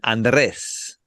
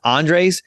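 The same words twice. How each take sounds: First: The name is said with non-English sounds. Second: The name is said with English-style sounds. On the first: This is for speakers whose first language is not English. "if it's not your first language" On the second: This is for speakers whose first language is English. "if your uh English is your first language"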